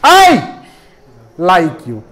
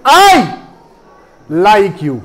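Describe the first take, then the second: First: Said in the usual way. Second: "I" punched out alone; stress on I. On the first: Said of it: "मैंने क्या किया". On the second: Shown as a demonstration. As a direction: hit "I" hard and let "like you" fall. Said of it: "आई को क्या मैंने किया, loudly".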